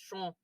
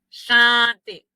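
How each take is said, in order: First: The vowel is nasal and sounds close to O. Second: The vowel sounds like a plain A. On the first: The speaker calls it right. "es chon. Suena como una, entre una A y una O" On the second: The speaker calls it wrong. "No es chante, chante, no"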